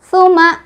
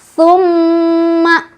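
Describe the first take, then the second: First: A single m is said with no nasal hold. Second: The doubled m is nasalized and held long. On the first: The speaker calls it wrong. "nggak ada tasdidnya ya, salah, jadi otomatis nggak ada dengung" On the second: The speaker calls it right. "bacaan yang betul adalah summa summa, dua ya"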